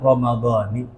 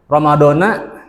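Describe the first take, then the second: First: The word ends with an 'i' vowel. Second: The word ends with an 'a' vowel. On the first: The speaker calls it right. "Secara tata bahasa yang benar adalah Ramadhani" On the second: The speaker calls it wrong. "secara tata bahasa keliru"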